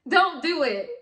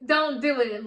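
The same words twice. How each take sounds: First: High and loud, a firm warning to viewers; stern warning shout, don't pressed hard. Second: Louder repeat, Don't stressed; emphatic echo, Don't hit loud; firm repeat. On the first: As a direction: hammer home don't do it, louder and higher. Warning viewers against Bitcoin scams. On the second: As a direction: drive the point home once more. Repeats the warning to viewers. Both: Real, not acted.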